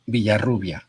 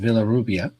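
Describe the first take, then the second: First: It has a B sound and a rolled R. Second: It is said with English sounds, as spelled. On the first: "if you speak Spanish, it's Villarrubia" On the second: "if you don't speak Spanish, it's Villarrubia, like it's written"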